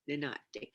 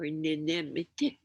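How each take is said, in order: First: The word is run together into fewer syllables. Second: The word is said in full, with every syllable. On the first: This is how many people say it now. "It's like made it one" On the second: This is how traditional people say it. "the traditional people, uh, will say"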